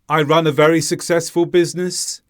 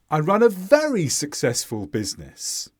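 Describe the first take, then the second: First: The pitch stays flat across the whole sentence. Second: The pitch jumps up on the word very. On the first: The speaker sounds robotic and not confident. "The tone doesn't rise or fall" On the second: The speaker stresses the degree of success, sounding confident. "I've emphasised the word very by going up with my tone"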